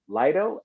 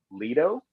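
First: "Lido" said LIE-doh, questioning rise; alternative pronunciation. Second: "Lido" said LEE-doh, questioning rise; alternative pronunciation. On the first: Guest unsure of the artist's name, "[name]" as LIE-doh. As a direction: try "Lido" with the first syllable like lie. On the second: Guest unsure of the artist's name, "Lido" as LEE-doh. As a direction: try "Lido" with a long ee first syllable. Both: Shown as a demonstration. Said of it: "I'm gonna say".

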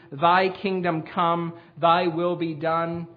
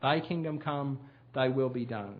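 First: Each word weighed, slow and solemn; slow deliberate prayer. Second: Soft, low echo of the phrase; quiet repeat. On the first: Preacher slowly intoning the Lord's Prayer line to the congregation. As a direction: lay down Thy kingdom come slowly, word by word. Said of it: "one of the most dangerous ways we can pray". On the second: Preacher quietly repeating the prayer to let it sink in. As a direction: murmur it back to yourself. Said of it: "Not the words, but the meaning". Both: Shown as a demonstration.

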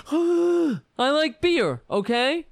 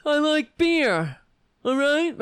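First: Loud, high, slow indignant shout; shouted Kavanaugh impression. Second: Loud and high, slowed indignant yell; shouted Kavanaugh impression. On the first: Mocking Kavanaugh yelling at the senators, loud and high. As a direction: bellow it like an outraged nominee. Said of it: "Kavanaugh ... All crying about". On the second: Mocking Kavanaugh's angry testimony, loud and high. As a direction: bark it out defensively. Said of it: "Kavanaugh is like that".

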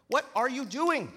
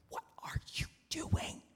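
First: Much higher, loud snapping demand; angry demand. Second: Urgent unvoiced whisper; frantic whisper. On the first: Acted. Steward storming back at the servant, loud angry demand. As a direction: bark it at him. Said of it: "he demanded". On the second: Servant signalling the steward behind the farmer, frantic whisper. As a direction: mouth it in a panic. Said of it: "he mouthed frantically".

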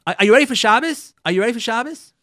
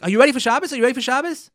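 First: Higher, louder husband's question. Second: Higher, louder husband checking in; husband's question. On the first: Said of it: "Erev Shabbos says". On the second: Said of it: "He's like". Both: Retold or imitated. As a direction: ask it like a husband on the phone.

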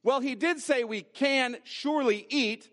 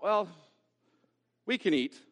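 First: Higher, stressed "can surely eat"; emphatic assurance. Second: Hesitant "well", then understated; lukewarm concession. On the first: Eve recalling what God did say, emphatic and higher on "surely". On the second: Eve dropping the emphasis, lukewarm and hesitant. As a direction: concede it half-heartedly, with a pause. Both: Acted. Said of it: "It sounds like this".

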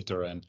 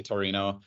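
First: "Turin" in two syllables, no final o; North American place name. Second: "Torino" with three syllables, ending in o; Italian place name. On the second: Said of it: "Italians will say Torino". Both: Shown as a demonstration.

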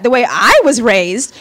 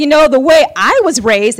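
First: Slow "the way I was raised" with the weight on "I"; stress on I. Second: Said in the usual way. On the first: Retold or imitated. Roommate's proud line, slowly stressing "I". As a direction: lean hard on "I", rising at the end. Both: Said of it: "and she said it just like that".

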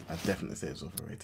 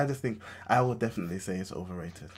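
First: A fast, half-whispered repeat; muttered repeat. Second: Said in the usual way. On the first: Real, not acted. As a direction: toss it off under your breath. Repeats the opinion under breath.

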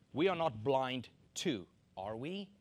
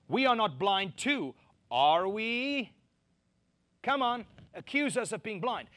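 First: Gentle, mild question; said nicely. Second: Louder, higher, defiant push-back; indignant challenge. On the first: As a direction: ask it politely, no edge. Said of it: "Now, I said it nicely". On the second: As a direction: throw it back as an accusation. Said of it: "you can imagine what they said". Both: Shown as a demonstration.

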